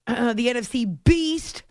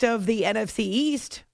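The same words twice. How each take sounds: First: Slow, leaning on "beast"; pun on beast. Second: Said in the usual way. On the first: Real, not acted. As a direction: stretch out "the N F C beast" and hit "beast". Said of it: "becoming easier for me to say".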